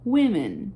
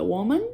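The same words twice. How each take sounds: First: "women" said as WIM-en, short i sound in the first syllable; plural women. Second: "Woman" said as WU-man, open a in the second syllable; singular woman. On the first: Teacher contrasting plural for her students, "women" as WIM-en. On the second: Teacher contrasting singular for her students, "Woman" as WU-man. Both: Shown as a demonstration. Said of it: "A pronúncia muda".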